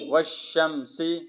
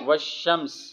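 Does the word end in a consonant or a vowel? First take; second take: vowel; consonant. First: The word ends with a short vowel. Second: The word ends on a consonant. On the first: The reading continues without stopping. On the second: The reader stops on this word.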